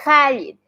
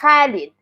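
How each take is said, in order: First: It begins with a raspy, throaty kh sound. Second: It begins with a raspy, throaty kh sound.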